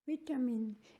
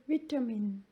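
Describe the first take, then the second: First: It is said in a British accent. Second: The same.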